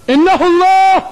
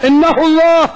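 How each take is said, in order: Both takes have the same delivery.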